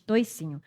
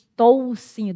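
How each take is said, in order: First: The first syllable has an 'oi' diphthong. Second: The first syllable has a plain 'o' vowel. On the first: This is how people here usually say it. "diz toicinho" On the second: This is the written form, less used locally. "A gente geralmente não diz toucinho"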